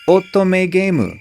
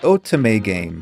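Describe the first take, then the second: First: It is said with a Japanese pronunciation. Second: It is said with an English pronunciation.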